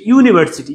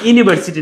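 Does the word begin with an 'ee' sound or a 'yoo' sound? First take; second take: yoo; ee. First: The word begins with a 'yoo' sound. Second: The word begins with a plain 'ee' sound. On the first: The speaker calls it right. "এটা হচ্ছে ইউনিভার্সিটি, ইউ" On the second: The speaker calls it wrong. "এটা কিন্তু ইউনিভার্সিটি না"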